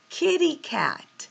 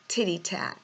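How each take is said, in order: First: Both words begin with a k sound. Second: Both words begin with a t sound. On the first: It gives the child a correct model to copy. The speaker calls it right. "provide the correct version of the word" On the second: A young child is still learning the sound. The speaker calls it wrong. "he mispronounces a word"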